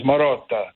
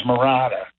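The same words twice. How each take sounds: First: "Marotta" with an Italian open o, ma-ROT-ta; Sicilian pronunciation. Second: "Murata" said the American way, mə-RAH-tah; American pronunciation. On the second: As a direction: say "Murata" as a New Jersey native would. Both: Shown as a demonstration. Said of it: "Marotta sounds a lot better".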